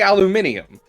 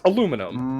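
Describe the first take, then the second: First: The word is said with five syllables. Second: The word is said with four syllables. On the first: This is how the rest of the world says it. "You say aluminium" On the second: This is how Americans say it. "it's a silent I because we say it is"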